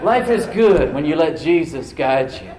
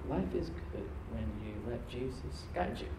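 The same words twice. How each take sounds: First: Louder and slow, laughing into it; bold practice declaration. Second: Quiet sincere offer. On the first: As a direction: proclaim it slowly and boldly. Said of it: "you gotta practice it". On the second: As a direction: say it softly to one person. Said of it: "You can steer someone". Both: Shown as a demonstration.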